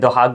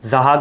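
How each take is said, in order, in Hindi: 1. इस नाम की शुरुआत d ध्वनि से होती है। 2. इस नाम की शुरुआत z ध्वनि से होती है। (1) "अरबी में दोहाक बोलते हैं" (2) "उर्दू में जहाक हो गया"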